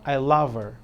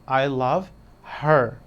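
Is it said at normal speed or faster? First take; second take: faster; normal. First: It is said a little faster. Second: It is said at a normal, careful speed.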